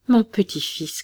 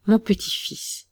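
First: A raised, higher cry of joy; mild hammed-up call of recognition; old man crying out. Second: Raised, higher repeat of the call; old man crying out. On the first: Grandfather recognises his grandson and calls out, mildly raised. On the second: Grandfather calls to his found grandson, raised voice. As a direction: call out the grandson again, tearful. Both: A narrator's reading. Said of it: "clama le vieillard".

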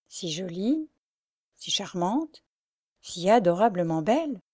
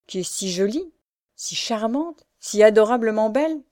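First: Slow mocking repeat. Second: Each phrase climbing higher in rapture; exalted praise. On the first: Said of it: "il dit lentement". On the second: Pierre praising the blind girl, exalted rising lines. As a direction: lift each line higher in awe. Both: A narrator's reading.

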